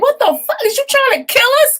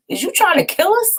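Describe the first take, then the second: First: Much higher and louder mock fury, rushed; mad sister, louder. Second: Higher, imitated outrage at the salty cakes; retold mad sister. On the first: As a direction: blurt the sister's outraged squeal fast and loud. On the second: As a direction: squeak out the little sister's indignant question. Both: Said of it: "she was so mad".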